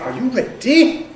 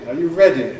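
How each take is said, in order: First: Welsh accent with a very long D. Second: British accent with a short D. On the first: "a caricature Welsh accent" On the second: "My English is ready"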